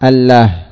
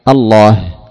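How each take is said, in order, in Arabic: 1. صوت اللام خفيف ورقيق. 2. صوت اللام ثقيل ومفخم. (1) "فصارت الله" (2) "ثم غلظت اللام تفخيما لهذا الاسم العظيم فقيل الله"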